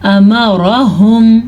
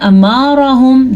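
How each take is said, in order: First: No vowel in the word is lengthened. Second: A vowel in the word is drawn out long. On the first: The speaker calls it right. "यहाँ पे कोई भी ऐसी चीज़ नहीं जिसको हम लंबा करें।" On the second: The speaker calls it wrong. "ये भी गलत है।"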